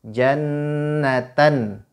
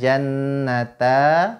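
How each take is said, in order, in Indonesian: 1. Kata ini berakhir dengan bunyi n. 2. Kata ini berakhir dengan vokal a terbuka.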